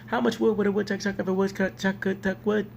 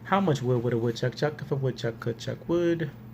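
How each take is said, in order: First: It is said at a faster pace. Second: It is said at a slow pace. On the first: "We're going to speed it up" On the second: "I'm going to say it three times"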